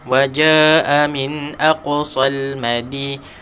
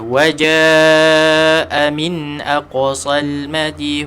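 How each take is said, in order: First: The long vowel in jaa is held briefly. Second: The long vowel in jaa is held extra long. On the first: The speaker calls it wrong. "kalau kita baca dua tak cukup" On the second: The speaker calls it right. "kena baca"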